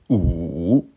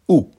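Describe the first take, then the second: First: The pitch dips low, then rises. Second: The pitch falls sharply from high. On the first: "Troisième ton" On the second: "Quatrième ton"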